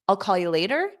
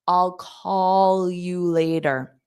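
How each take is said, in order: First: The sentence is spoken quickly. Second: The sentence is spoken slowly. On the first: "So I'll say it fast again" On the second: "so now I'll say it slowly"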